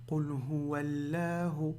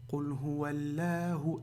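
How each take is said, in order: The two takes are said the same way.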